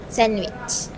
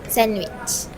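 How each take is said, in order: Both takes have the same delivery.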